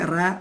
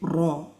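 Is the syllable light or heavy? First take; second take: light; heavy. First: The syllable is light with a front vowel. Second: The syllable is heavy with a back vowel. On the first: The speaker calls it wrong. "we don't say ra" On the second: The speaker calls it right. "we say raw, heavy"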